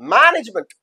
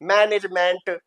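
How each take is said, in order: First: The first syllable is stressed, later vowels reduced. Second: Every syllable gets equal time and full vowels. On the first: The speaker calls it right. "मैन को हम देंगे stress" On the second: The speaker calls it wrong. "हर syllable को, हर स्वर को हम उतना ही time देंगे"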